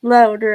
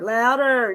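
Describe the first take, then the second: First: "Loader" with a long "oh" as in load; corrected name. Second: "Louder" with the "ow" vowel as in loud; wrong name. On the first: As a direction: says "Loader" rhyming with road. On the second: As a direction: says "Louder" rhyming with cloud. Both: Real, not acted.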